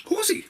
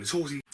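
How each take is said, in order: First: Very high, loud squeaked 'horsey'; silly squeal. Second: Slightly raised, playful 'horsey'; mildly playful. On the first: Reviewer joking about riding around, silly squeal. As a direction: squeal HORSEY in a comic falsetto. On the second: Reviewer on Seagal riding around, mildly playful. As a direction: say HORSEY a little higher, still near normal voice. Childlike cry about horse riding. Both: Pretend.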